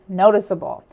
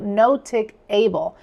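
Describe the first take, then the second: First: The C is said as a soft s sound. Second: The C is said as a hard k sound. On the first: The speaker calls it right. "the intended noticeable" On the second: The speaker calls it wrong. "altering the pronunciation to notic able"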